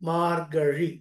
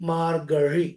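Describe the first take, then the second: Both takes have the same delivery.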